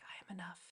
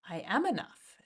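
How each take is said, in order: First: It is whispered softly. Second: It is spoken aloud with force.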